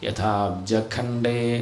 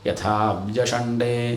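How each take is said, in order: First: The word is said with a kh sound. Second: The word is said with a sh sound. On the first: "ചില പുസ്തകത്തിൽ ഖണ്ഡേന്നാവും" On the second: "ചില പുസ്തകത്തിൽ അവിടെ ഷണ്ടേന്നാവും"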